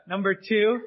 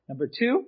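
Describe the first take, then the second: First: Said in the usual way. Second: Sudden upward voice crack. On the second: Real, not acted. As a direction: voice cracks up high on the word. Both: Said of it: "don't know why my voice just cracked".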